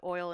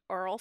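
First: Said in the usual way. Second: "Earl" for oil, r-coloured vowel; local oil pronunciation. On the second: Retold or imitated. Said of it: "He apologized for there being an Earl spill".

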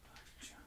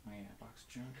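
First: Breathy whispered repeat of Box junk. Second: Said in the usual way. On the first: Real, not acted. Repeats found item name.

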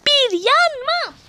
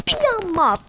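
First: "bir yanma" stretched slow, higher and louder; drawn-out plea. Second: Said in the usual way. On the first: Real, not acted. Begging the game not to kill her, "bir yanma" drawn out higher. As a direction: plead "bir yanma" long and slow, pitch up.

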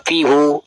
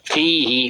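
First: FIHU with a final "hu"; rejected reading fihu. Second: FIHI with a final long "hi"; correct reading fihi. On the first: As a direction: read it fihu, ending in a u vowel. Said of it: "fihu, pe me an". (อ่าน fihu ลงท้ายเสียงอู) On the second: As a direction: read it fihi, ending in an i vowel. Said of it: "kon me an, wa, fihu". (อ่าน fihi ลงท้ายเสียงอี) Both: Shown as a demonstration.

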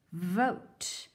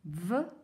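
First: Said in the usual way. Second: V-ote split, onset held; sounded out. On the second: Shown as a demonstration. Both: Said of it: "Help me read".

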